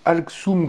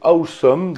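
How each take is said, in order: First: The name is said like 'Alxum'. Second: The name is said like the word 'awesome'. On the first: The speaker calls it wrong. "non pas de Alxum comme on aurait pu le penser" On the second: The speaker calls it right. "il s'agit de Awesome"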